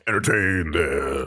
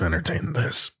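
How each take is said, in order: First: The voice is deep and clear. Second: The voice is rough and phlegmy. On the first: The speaker has recovered. "who was that deep voice back from the hiatus?" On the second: The speaker is ill. "So this is what you all missed out on"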